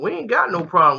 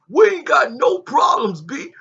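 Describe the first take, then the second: First: It is said in the speaker's normal voice. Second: It is said in an imitation of Cam's voice.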